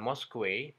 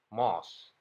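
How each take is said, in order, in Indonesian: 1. Ada bunyi w di akhir. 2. Tidak ada bunyi w di akhir. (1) "W-nya dibaca juga" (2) "hanya dibaca mosque"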